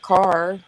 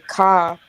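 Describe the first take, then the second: First: The final r sound is pronounced. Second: The final r sound is dropped. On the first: "instead of "car,"" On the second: "people from the New England states who say "ca""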